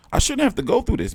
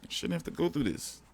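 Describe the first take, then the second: First: High, fast whining protest; whiny complaint. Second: Much softer, deflated repeat; defeated murmur. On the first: Streamer whining to chat about changing channels, high fast whine. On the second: Streamer repeating his complaint to chat, soft resigned murmur. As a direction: let it fall away, resigned. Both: Real, not acted.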